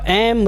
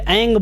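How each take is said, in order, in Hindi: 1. शब्द एक स्पष्ट m ध्वनि पर समाप्त होता है। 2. शब्द किसी दूसरी नासिक्य ध्वनि पर समाप्त होता है। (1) "आप उसको म भी उच्चारण कर सकते हैं" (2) "उस वर्ग का अंतिम अक्षर होता है"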